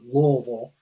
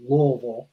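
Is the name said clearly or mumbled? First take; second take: mumbled; mumbled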